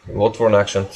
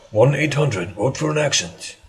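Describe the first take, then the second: First: Said in the usual way. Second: Mock phone-in advert.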